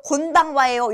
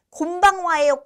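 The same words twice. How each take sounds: First: 곤방와예요 with a clear n before 방; tongue-tip n closing the first syllable of 곤방와예요; n pronunciation. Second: 곤방와예요 said as 곰방와예요, with lips closed; an m before 방 in 곤방와예요; m pronunciation. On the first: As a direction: ask 곤방와예요 with n, lips open until 방. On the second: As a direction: ask 곤방와예요 with the first syllable ending in m. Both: Shown as a demonstration. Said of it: "이렇게 질문하시는 분도 가끔 계셔서".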